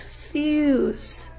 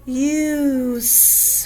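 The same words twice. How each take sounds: First: Said in the usual way. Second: "Fuse" stretched slowly, f held apart from the long u; slow, segmented "Fuse" to expose the vowel; sounded out. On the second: Shown as a demonstration. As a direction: draw out each sound in "Fuse". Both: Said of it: "find our vowel sound next".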